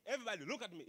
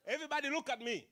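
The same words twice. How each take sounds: First: Said in the usual way. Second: Louder, quicker call to the room; loud and fast. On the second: Shown as a demonstration. Speaker demanding the audience's eyes, loud and fast. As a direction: command attention, loud and quick.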